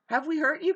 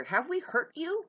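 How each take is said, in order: First: Pushed harder, louder plea; louder repeat. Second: Said in the usual way. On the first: Acted. Pressing the accusers a second time, louder. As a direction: demand an answer, raising the voice.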